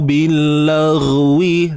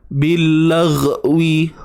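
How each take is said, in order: First: The gh sound flows out continuously. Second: The gh sound is held back and choked. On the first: The speaker calls it right. "Biarkan suara mengalir" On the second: The speaker calls it wrong. "bunyi tercekik tu"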